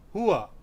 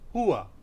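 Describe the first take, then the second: First: The word is said as two syllables. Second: The same.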